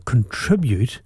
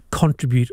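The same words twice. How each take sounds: First: "contribute" as con-TRIB-ute; "contribute" with the weight in the middle; stress on second syllable. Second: "contribute" as CON-tri-bute; "contribute" with the weight up front; stress on first syllable. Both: Shown as a demonstration. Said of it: "depends where you put the emphasis".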